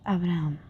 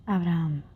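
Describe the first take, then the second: Both takes have the same delivery.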